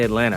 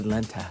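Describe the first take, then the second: First: The second t is softened or dropped. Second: The second t is clearly pronounced. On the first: This is how locals say it. The speaker calls it right. "If you're from Atlanta, you say Atlanta" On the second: This is how outsiders say it. The speaker calls it wrong. "You don't say Atlanta"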